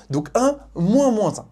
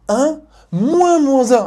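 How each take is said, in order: First: Said in the usual way. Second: "moins moins" said slow, high and loud; stress on moins moins. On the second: Shown as a demonstration. Teacher warning student about "moins moins". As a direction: lean hard on "moins moins" as a warning. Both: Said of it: "Attention, la formule veut un moins".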